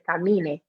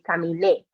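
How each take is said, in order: First: The stress falls before the last syllable. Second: The stress falls on the last syllable. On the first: The speaker calls it wrong. "if there's no accent, we would pronounce it camine, and that's not right" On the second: The speaker calls it right. "really putting the stress on that e at the end"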